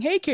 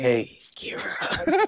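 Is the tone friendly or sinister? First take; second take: friendly; sinister. First: It is said in a plain friendly tone. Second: It is said in a dark, creepy tone.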